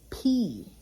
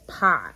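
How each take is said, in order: First: It is said with a Greek pronunciation. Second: It is said with an English pronunciation. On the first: The speaker calls it right. "It's P" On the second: The speaker calls it wrong. "People have pronounced pi for years as pi"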